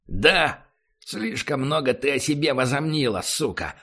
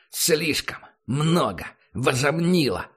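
First: Furious snarl at the prisoner; angry. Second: Слишком много возомнила hammered slowly word by word; each word stressed. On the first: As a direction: spit it out in rage. Barry kicks and curses prisoner. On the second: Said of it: "Выделяя каждое слово". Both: Acted.

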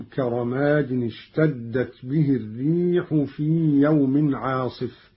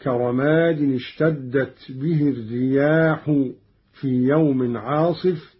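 First: الريح recited as singular ar-rīḥ; singular reading. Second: الرياح recited as ar-riyāḥ with open ya and long a; الرياح in the plural, riyāḥ; Qalun plural reading. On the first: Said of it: "قرأ قالون بفتح الياء وألف بعدها". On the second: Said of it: "بفتح الياء وألف بعدها هكذا". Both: Shown as a demonstration.

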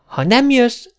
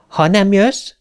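First: Put-on much higher child's threat, falling at the end; threatening. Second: Higher voice, rising at the end; sulky. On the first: Little girl playing her last card, threatening. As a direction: lay down an ultimatum in a child's voice. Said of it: "fenyegetődzött". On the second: Little girl drawing away from the robot, lightly sulky. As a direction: pull away with a mild sulk. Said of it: "mondta elhúzódva". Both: A narrator's reading.

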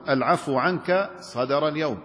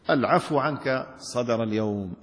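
First: Said in the usual way. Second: Glad tidings. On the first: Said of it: "نحو". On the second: Shown as a demonstration. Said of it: "قدمت كلاما يستبشر به".

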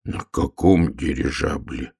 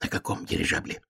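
First: Low, slow, sinking voice; crestfallen. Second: Voiceless soft whisper; hushed aside. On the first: Bear cub hears of the airship journey, crestfallen. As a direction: ask it with the heart sinking. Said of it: "упавшим голосом спросил медвежонок". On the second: Hare bends to the frog to check, whispering. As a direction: whisper it down to someone small. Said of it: "склонился к лягушонку заяц". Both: Acted.

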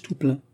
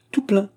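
First: Said in the usual way. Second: "Tout plein" repeated much higher, with emphasis; insistent. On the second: A narrator's reading. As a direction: insist on "Tout plein" in a high, girlish pitch. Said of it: "insista la jeune fille". (« Tout plein » insistant, très aigu)

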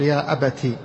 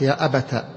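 First: "أبتي" ending in i; kasra ending. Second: "أبت" ending in a; fatha ending. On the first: Teacher showing most eloquent form, "أبتي" said abati. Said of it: "أفصحها الكسر". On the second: Teacher showing next form, "أبت" said abata. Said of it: "الفتح". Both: Shown as a demonstration.

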